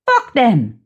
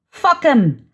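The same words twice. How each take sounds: First: Said in the usual way. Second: "fuck 'em" with "them" reduced to a short "em"; clipped form of them. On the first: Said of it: "fuck 'em, as you would say". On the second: Acted. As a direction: run "fuck 'em" together, dropping the th. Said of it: "as you would say".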